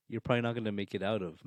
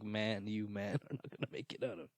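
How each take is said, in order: First: Said in the usual way. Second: Soft, laughing through the words; laughing warning. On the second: Real, not acted. Podcast host laughing while warning his friend, softer. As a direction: chuckle as you repeat the warning.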